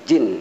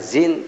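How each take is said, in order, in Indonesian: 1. Kata ini dimulai dengan bunyi j. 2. Kata ini dimulai dengan bunyi z. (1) "tapi jin" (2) "bukan zin"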